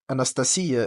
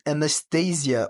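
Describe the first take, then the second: First: The name is pronounced the Russian way. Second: The name is pronounced the English way.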